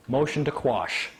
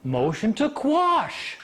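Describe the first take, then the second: First: Said in the usual way. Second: High, very drawn-out proclamation; acted-out slow, stubborn announcement; emphatic declaration. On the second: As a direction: stretch it out insistently. Brother insists again, acted out.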